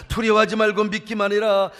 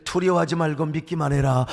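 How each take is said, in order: First: Said in the usual way. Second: Low gentle voice. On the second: Acted. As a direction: say it low and close. Low quiet take of the quote.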